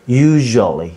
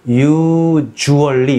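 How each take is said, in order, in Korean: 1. 'usually'는 입을 크게 벌리고 말합니다. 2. 'usually'는 입을 좁게 벌리고 말합니다. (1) "입을 좀 크게 벌리셔야 돼요" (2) "usually 이러지 마시고"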